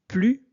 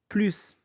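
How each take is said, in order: First: The final S is silent. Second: The final S is pronounced. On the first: The speaker calls it right. "C'est pourquoi on prononce plus" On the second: The speaker calls it wrong. "et non plus"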